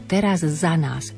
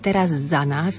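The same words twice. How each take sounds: First: A tiny pause separates the two z sounds. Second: The z sound is held as one long z. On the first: "Maličká pauzička medzi jednotlivými z" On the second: "Buď ho predlžíme"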